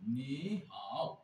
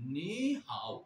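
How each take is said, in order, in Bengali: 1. দুটো শব্দাংশেই নিচু, নেমে-ওঠা সুর আছে। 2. প্রথম শব্দাংশ ওপরে ওঠে, দ্বিতীয়টি নিচে নামে। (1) "দুই জায়গায় থার্ড টোন ইউজ করতেছি" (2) "second tone plus third tone কিভাবে বলবো?"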